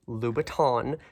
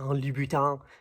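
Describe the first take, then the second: First: The name is said with an Anglicized pronunciation. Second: The name is said with a French pronunciation. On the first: "it's just how I like to say it" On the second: "I know how to say it, but to me it sounds funny"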